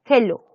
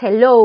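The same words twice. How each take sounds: First: "hello" as a Spanish-speaking beginner says it; beginner's Spanish-accented "hello"; learner's mispronunciation. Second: "hello" in English sounds, not Spanish ones; English-style "hello" for learners; correct English pronunciation. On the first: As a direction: pronounce "hello" with Spanish sounds. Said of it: "así pronuncia hello". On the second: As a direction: model "hello" as English speakers say it. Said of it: "lo correcto es hello". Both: Shown as a demonstration.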